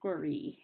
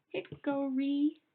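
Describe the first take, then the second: First: Said in the usual way. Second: Hickory stretched slow, each syllable pulled apart and higher; slow, pitched-up teacher demo of Hickory; spelled out slowly. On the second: Shown as a demonstration. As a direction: draw out Hickory syllable by syllable for the class. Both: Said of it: "let's spell that out".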